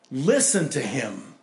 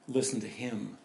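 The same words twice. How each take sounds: First: Slow, louder command; voice from the cloud. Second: Softer, lower, Listen said gently; quiet reflection. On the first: Acted. Voice from the cloud commanding the disciples, slow and firm. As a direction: lean on Listen, slow and firm. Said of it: "a voice from the cloud says". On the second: Shown as a demonstration. Preacher repeating the command to the congregation, quiet and reflective. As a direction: let Listen fall quietly. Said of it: "That's a pretty good vision to have".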